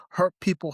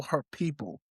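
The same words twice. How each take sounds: First: HURT leaned on firmly; hurt stated with weight; stressed. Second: "hurt people" repeated much softer; a hushed restatement; softer echo. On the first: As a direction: press down on "hurt" in "hurt people". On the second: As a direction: let "hurt people" fall away quietly. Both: Shown as a demonstration.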